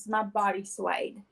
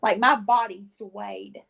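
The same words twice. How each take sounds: First: "my body swayed" said slowly, leaning on "my"; slow stress on my. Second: Slow emphatic. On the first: Telling a friend at church, "my" stressed slowly. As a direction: repeat it, hitting "my". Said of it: "Okay, like". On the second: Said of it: "Okay, like, my body swayed". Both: Shown as a demonstration.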